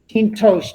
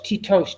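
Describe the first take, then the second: First: An n sound is heard before the t. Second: No n sound is heard before the t. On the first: "if you pronounce the word with the nun in there" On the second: "The nun wants to fall out because we want to say the word faster"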